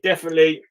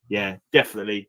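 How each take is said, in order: First: Definitely said louder and higher; emphatic definitely. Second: Said in the usual way. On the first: Real, not acted. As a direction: punch out Definitely with a lift. Emphatic repeat.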